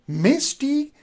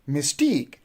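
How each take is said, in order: First: The stress is on the first syllable. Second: The stress is on the second syllable. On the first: The speaker calls it wrong. "you are putting the stress on the first syllable, which is wrong" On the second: The speaker calls it right. "you will say mystique"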